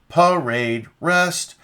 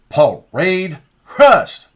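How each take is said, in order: First: The pitch stays fairly flat on 'parade'. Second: The pitch rises clearly on 'parade'. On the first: The speaker calls it wrong. "That's not inflection" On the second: The speaker calls it right. "The the inflection in the voice has to go up for each of the preparatory commands"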